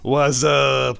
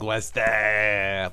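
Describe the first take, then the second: First: It is said in a plain friendly way. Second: It is said snarky, like he's angry.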